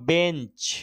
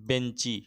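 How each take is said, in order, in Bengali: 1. শব্দটি ব্যঞ্জন ধ্বনিতে শেষ হয়। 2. শব্দটি যোগ হওয়া 'i' স্বরধ্বনিতে শেষ হয়।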